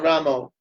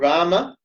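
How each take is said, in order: First: The name ends with an 'oh' vowel. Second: The name ends with an 'ah' vowel. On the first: The speaker calls it wrong. "but not Ramo" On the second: The speaker calls it right. "Ram Ram or Rama"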